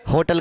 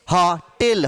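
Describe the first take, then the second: First: होटल with a closed, rounded ओ; wrong ओ vowel. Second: होटल as "हॉ-टिल", open ऑ; open ऑ vowel. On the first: Teacher faults students' spelling, closed ओ in होटल. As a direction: say होटल with full ओ, as the mistake. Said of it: "होटल गलत लिखते हो". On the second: Teacher corrects students, open ऑ in होटल. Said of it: "अ का उच्चारण". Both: Shown as a demonstration.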